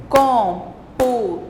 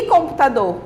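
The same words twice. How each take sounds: First: "Computador" slowly, COM, PU, TA, DOR with pauses between; syllable by syllable. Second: Said in the usual way. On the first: Shown as a demonstration. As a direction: count out the four syllables of "Computador". ("Computador" pausado, sílaba por sílaba) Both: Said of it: "quatro sílabas".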